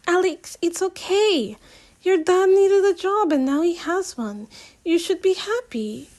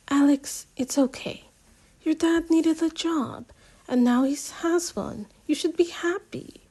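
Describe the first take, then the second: First: Higher, lighter voice for Simi; Simi's voice. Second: Said in the usual way. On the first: Acted. Simi soothing her angry friend, higher lighter voice. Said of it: "Simi says". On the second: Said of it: "Wait, sorry, wrong person".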